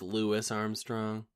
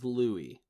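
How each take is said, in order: First: The first name ends with an s sound. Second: The first name ends without an s sound. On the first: The speaker calls it wrong. "You said Lewis twice" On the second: The speaker calls it right. "His name is Louis. Obviously"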